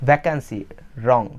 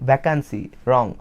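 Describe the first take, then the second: No difference in how they are said.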